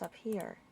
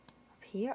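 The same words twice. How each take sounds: First: "up here." settling down on "here"; confirming "up here.". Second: "Up here?" with a rising question tune on "here". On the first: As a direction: state "up here." flatly, falling on "here". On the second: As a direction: ask "Up here?", lifting "here" at the end. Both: Real, not acted. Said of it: "Oh, yes".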